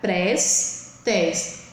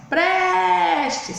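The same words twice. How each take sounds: First: "Prestes" split into pres, tes; separated syllables. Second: "prestes" with PRES held long and high; higher, drawn-out stressed PRES in "prestes"; calling the word. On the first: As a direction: say "Prestes" in two beats with a gap. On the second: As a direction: call out PREEEStes, stretching the first syllable. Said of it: "chame a palavra". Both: Shown as a demonstration.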